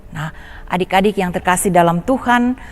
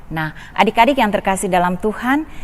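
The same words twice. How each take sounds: No difference in how they are said.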